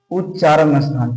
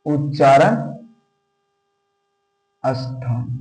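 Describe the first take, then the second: First: Said in the usual way. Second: उच्चारण then a long pause, then स्थान soft and low; dictating word by word with a gap before स्थान; split dictation. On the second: Shown as a demonstration. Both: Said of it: "teacher dictates term again".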